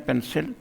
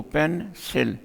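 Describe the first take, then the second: First: Said in the usual way. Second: पेन, सिल as two detached beats; split into syllables. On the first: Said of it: "ये जब हम बोलते हैं". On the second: Shown as a demonstration. Teacher showing the tongue moves twice, split into syllables. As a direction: break between पेन and सिल. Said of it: "दो मरतबा हमें अपने टंग को".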